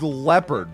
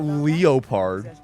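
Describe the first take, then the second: First: Leopard is said with its usual standard pronunciation. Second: Leopard is said as spelled, an unusual pronunciation. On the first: The speaker calls it right. "that word is leopard" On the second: The speaker calls it wrong. "not leopard"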